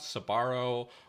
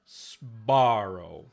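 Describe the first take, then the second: First: A short vowel separates the s and b. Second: A hissing s runs straight into voiced b. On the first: "they put an empathetic schwa" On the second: "they don't say Sbarro"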